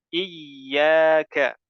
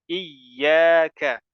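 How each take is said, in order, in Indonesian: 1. Bunyi y ditahan lama dan dobel. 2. Bunyi y ditahan lama dan dobel.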